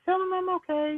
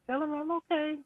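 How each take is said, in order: First: High, louder imitation of Lynn insisting; imitating Lynn. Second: High, firm repeat of Lynn's words; imitating Lynn again. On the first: Friend retelling Lynn's insistence, high imitation. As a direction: raise the pitch and press the words as Lynn. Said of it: "And she's like". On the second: Friend recalling Lynn repeating her wish, high. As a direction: say it again higher, insisting like Lynn. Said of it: "and she's like".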